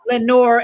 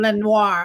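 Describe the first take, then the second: First: The name ends with an English 'nore' sound. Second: The name ends with a French 'nwar' sound. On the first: The speaker calls it right. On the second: The speaker calls it wrong. "I say Lenoir"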